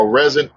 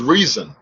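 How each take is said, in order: First: Rezon said with a short E, REZ-un; alternative pronunciation attempt. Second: Rezon said with a long EE, REE-zun; first pronunciation attempt. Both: Shown as a demonstration. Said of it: "However way you're supposed to pronounce it".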